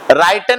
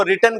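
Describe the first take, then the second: First: राइटन with a long "eye" vowel; wrong pronunciation. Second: रिटन with a short "i"; correct pronunciation. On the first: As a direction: say राइटन as "write" plus "-en". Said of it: "राइटन नहीं करना". (राइटन, "आइ" के साथ गलत उच्चारण) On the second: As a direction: say रिटन like "rit-en". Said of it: "उसको रिटन करना". (रिटन, छोटी "इ" के साथ सही उच्चारण) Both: Shown as a demonstration.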